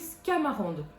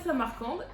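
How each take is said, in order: First: The name begins with a 'sc' cluster. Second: The name begins with a plain 's' sound. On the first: The speaker calls it wrong. "j'ai lu Scamarande" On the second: The speaker calls it right. "c'était Samarcande et pas Scamarande"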